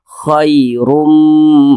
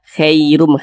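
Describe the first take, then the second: First: The first vowel is a soft 'ai' glide. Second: The first vowel leans toward an 'e' sound. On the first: The speaker calls it right. "dibaca lunak saja" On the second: The speaker calls it wrong. "jangan sampai condong ke e"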